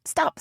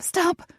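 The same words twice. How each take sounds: First: High urgent cry; panicked shout. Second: Much higher, more frantic cry; higher panicked shout. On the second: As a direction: push the pitch up, frantic. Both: A narrator's reading. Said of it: "McKinley cursed to herself".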